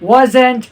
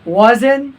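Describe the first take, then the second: First: The final t sound is clearly pronounced. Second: The final t sound is left off. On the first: This is how non-native speakers say it. "Strong reduction" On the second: This is how native speakers say it. "वो टी नहीं बोलते"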